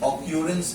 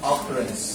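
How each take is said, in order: First: The second syllable has a 'kyoo' sound. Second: The second syllable has a 'kuh' sound. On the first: The speaker calls it wrong. "বলবে না" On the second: The speaker calls it right. "এরকম অকারেন্স লিখো"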